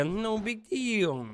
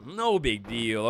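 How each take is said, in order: First: High, very slow no big deal; drawn-out nervous. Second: Said in the usual way. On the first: Real, not acted. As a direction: stretch it out, nervously. Nervous self-reassurance.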